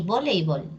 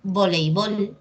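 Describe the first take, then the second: First: Voleibol said vo-LEI-bol; early stress. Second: Voleibol said volei-BOL; final stress. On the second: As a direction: stress the last syllable of voleibol. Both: Shown as a demonstration. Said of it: "También tenemos".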